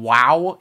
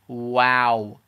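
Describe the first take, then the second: First: The vowel is a heavy, rounded ow sound. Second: The vowel is a light, open ah sound. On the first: The speaker calls it wrong. "when you say it in English, you say the noise with a ow, so kind of like it's heavy" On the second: The speaker calls it right. "it should be light"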